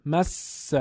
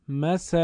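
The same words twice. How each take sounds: First: "مس" with a long, emphatic double s; correct doubled consonant. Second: "مس" with a short single s, tashdid dropped; unemphatic single consonant. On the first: Teacher giving the word to be read, emphatic doubled س in "مس". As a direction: hold the س in "مس" before releasing the vowel. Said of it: "چون با تأکید نگفته". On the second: Teacher imitating a reader's mistake, short undoubled س in "مس". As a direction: pass quickly over the س in "مس", undoubled. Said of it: "چون با تأکید نگفته، حالت مشددش رو رعایت نکرده". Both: Shown as a demonstration.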